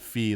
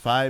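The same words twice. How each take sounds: First: The vowel sounds like 'ee', like the musical note. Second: The vowel sounds like 'eye', rhyming with 'sci-fi'. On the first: The speaker calls it wrong. "It's not Fi like the like the, musical note" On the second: The speaker calls it right. "it's Fi because they said her, her pronunciation is Fi because it's goes with sci-fi"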